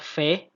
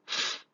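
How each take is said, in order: First: The consonant is followed by a vowel. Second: The consonant is said bare, without a vowel. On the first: The speaker calls it wrong. "kita tidak membacanya" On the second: The speaker calls it right. "kita baca"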